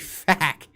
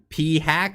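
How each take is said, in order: First: It is said as one word, 'fack'. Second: A separate letter P comes before 'hack'. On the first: "Why don't you just pronounce it in one?" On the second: "P hack as they're calling it"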